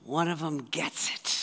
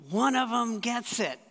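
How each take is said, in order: First: Lightly voiced, low amused aside; hint of a delighted Jesus; knowing twinkle. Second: Mild glad exclamation; delighted. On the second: Retold or imitated. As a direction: let the joy burst out a little. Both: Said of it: "twinkle in Jesus' eye going".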